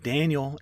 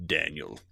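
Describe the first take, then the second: First: Wife calling Daniel. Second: "Daniel" said lower, falling away at the end; monster's Daniel. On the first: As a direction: call "Daniel" like his wife reaching for him. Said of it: "you know, she's like". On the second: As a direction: let "Daniel" drop low like something inhuman echoing. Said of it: "and then you hear". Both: Retold or imitated.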